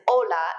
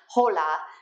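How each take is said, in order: First: The word begins with a vowel, no H sound. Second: The word begins with an audible H sound. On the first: The speaker calls it right. "you don't pronounce the H's when they come at the beginning of a word" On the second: The speaker calls it wrong. "and not hola"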